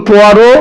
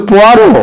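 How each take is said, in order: No difference in how they are said.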